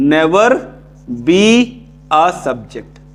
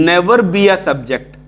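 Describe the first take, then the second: First: "never", pause, "be", pause, "a subject"; word-by-word emphasis. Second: Said in the usual way. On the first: Shown as a demonstration. Teacher drilling a grammar rule into pupils, word by word with pauses.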